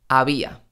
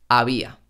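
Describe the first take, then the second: The two takes are said the same way.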